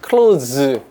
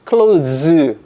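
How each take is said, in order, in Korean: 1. 동사처럼 들리게 발음돼요. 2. 동사처럼 들리게 발음돼요.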